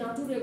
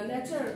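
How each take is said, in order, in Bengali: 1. এটি 'na-too-reh' ভাবে বলা হয়, তিন অংশে। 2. এটি 'nay-cher' ভাবে বলা হয়, দুই অংশে।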